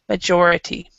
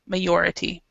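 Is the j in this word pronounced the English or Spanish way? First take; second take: English; Spanish. First: The j is given the English j sound. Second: The j is given a Spanish-style sound. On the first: The speaker calls it right. "but majority" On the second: The speaker calls it wrong. "with the the Spanish pronunciation"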